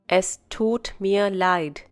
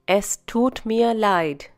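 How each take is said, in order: No difference in how they are said.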